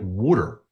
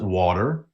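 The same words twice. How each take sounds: First: Water is said with a Philadelphia pronunciation. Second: Water is said with a standard American pronunciation. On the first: "you heard me right. I called it water" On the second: "The rest of the country calls it water"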